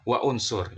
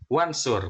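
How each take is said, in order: First: A glottal break separates wa from unsur. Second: The words run together with no glottal break. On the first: The speaker calls it wrong. "bukan wa unsur" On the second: The speaker calls it right. "maka kita membacanya menjadi wansur"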